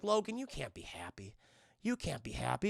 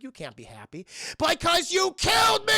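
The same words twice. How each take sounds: First: Low, soft imitated warning; quiet ominous warning. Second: High, loud mock outburst; shouted accusation. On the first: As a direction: lower your voice like a haunting vision. Voicing a haunting vision's warning. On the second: Same warning bursts into accusation.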